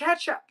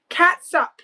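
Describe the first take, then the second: First: The word begins with 'ketch', ending in 'up'. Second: The word begins with 'cat', ending in 'sup'. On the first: It is said the usual way. "Why do we say ketchup with a K?" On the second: It is read the way it is spelled. "It says catsup"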